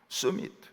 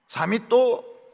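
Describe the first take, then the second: First: It is said with a Korean accent. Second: It is said with a Japanese accent. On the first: The speaker calls it right. "이렇게 해야 됩니다" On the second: The speaker calls it wrong. "사미또가 뭡니까?"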